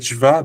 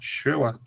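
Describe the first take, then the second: First: The sound after sh is a v. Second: The sound after sh is a w. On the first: This is the common modern pronunciation. "People say shva. That's just a Germanic uh, pronunciation of the W sound" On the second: This is the original Hebrew pronunciation. "In Hebrew, it's shewa or shwa"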